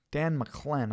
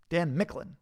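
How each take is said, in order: First: McClen with the weight on CLEN; name pronunciation attempt. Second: Micklin with the weight on MICK; name pronunciation attempt. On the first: Streamer guessing how to say Dan's surname, trying McClen. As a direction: say McClen as muh-KLEN. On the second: Streamer guessing how to say Dan's surname, alternative Micklin. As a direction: say Micklin as MICK-lin, higher. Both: Shown as a demonstration. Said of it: "How do you say that".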